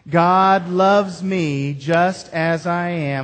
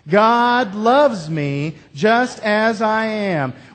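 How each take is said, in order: First: It is said in a milder, less forceful way. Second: It is said more forcefully and boldly.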